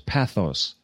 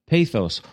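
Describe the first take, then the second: First: It is said with a Greek pronunciation. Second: It is said with an English pronunciation.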